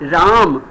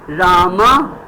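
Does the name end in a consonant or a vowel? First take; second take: consonant; vowel. First: The name ends on the consonant m. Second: The name ends with a short a vowel. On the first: This is the Hindi form of the name. "in Hindi" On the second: This is the Sanskrit form of the name.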